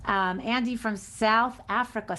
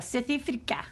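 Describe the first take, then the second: First: Said in the usual way. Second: South Africa said in a broad Afrikaans accent; vowels flattened in an Afrikaans accent, South Africa. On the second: Shown as a demonstration.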